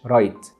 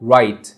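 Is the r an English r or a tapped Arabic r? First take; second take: tapped r; English r. First: The r is a tapped Arabic r. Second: The r is a smooth English r. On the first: The speaker calls it wrong. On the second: The speaker calls it right.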